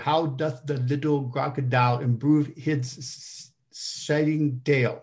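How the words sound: It sounds heavily nasal, like a bad cold. "more of a head cold and more of a head cold"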